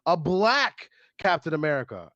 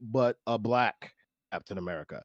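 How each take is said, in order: First: It sounds light and casual. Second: It sounds serious and loaded. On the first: It is just a different version. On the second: The choice carries heavy meaning. "the tonal difference was was different, and it carries a lot of lot of weight"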